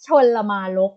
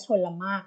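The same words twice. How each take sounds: First: ชลมารก read wrongly with an extra syllable as chon-ma-rok, a bit louder; ชลมารก voiced as a mistaken reading, chon-ma-rok; common mispronunciation. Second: ชลมาก read as chon-mak, two syllables, no extra r sound; teacher models the right reading of ชลมาก as chon-mak; correct pronunciation. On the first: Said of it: "ก็จะชอบออกเสียงว่า". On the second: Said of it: "ต้องอ่านว่าชลมากเท่านั้น". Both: Shown as a demonstration.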